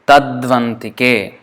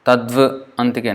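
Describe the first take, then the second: First: It is said smoothly without any break. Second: There is a break inside the word. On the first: The speaker calls it right. "as one word" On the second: The speaker calls it wrong.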